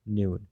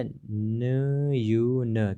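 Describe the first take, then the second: First: Said in the usual way. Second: न यू न drawn out very slowly, each sound apart; syllable by syllable. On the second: Shown as a demonstration. Teacher showing students the parts, very slow. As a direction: split न यू न into separate slow syllables. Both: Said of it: "क्या बन गया, न्यून".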